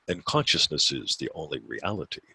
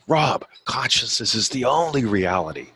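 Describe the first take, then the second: First: It is said flatly, as a recited statement. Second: It is said with personal, heartfelt conviction.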